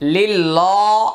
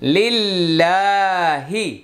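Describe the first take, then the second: First: The 'l' in the word sounds heavy and thick. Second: The 'l' in the word sounds light and thin. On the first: The speaker calls it wrong. "এরকম মোটা হবে না" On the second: The speaker calls it right. "পাতলা হবে"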